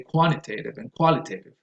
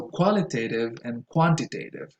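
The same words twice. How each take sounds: First: Quantitative with the first T lost, "quannitative"; casual fast-speech quantitative and qualitative; connected-speech reduction. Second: Said in the usual way. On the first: Shown as a demonstration. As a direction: let the T melt into N in quantitative. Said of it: "In fast connected speech, you can say". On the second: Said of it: "goes on the first syllable".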